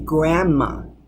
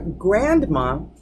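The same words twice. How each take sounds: First: The D sound is left out entirely. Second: The D sound is clearly pronounced.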